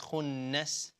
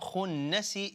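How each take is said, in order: First: The word ends on a silent s sound. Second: The word ends with an added i vowel. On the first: The speaker calls it right. "last letter becomes a silent letter" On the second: The speaker calls it wrong. "It's not khunnasi"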